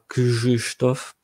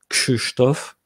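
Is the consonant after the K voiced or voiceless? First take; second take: voiced; voiceless. First: The consonant after K is a voiced 'zh' sound. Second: The consonant after K is a voiceless 'sh' sound. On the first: The speaker calls it wrong. "et pas Krzysztof" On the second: The speaker calls it right. "le R Z se prononce pas je, mais che, parce qu'il y a que avant"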